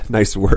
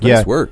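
First: It is said mockingly, with a sarcastic tone. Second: It is said warmly, as sincere praise. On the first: The person did not do a good job. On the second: The person did a good job.

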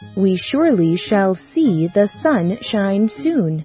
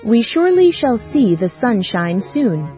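First: It is said a little faster. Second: It is said at the fastest pace.

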